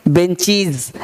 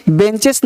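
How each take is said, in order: First: "बेंचीज" with long ee and final z; correct -IZ ending. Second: "बेंचेस" with short e and final s; wrong -ES ending. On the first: Teacher correcting the class, "बेंचीज" with z. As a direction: say "बेंचीज" ending -cheez, falling. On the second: Teacher rejecting a misreading, "बेंचेस" with s. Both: Shown as a demonstration. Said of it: "बेंचेस नहीं".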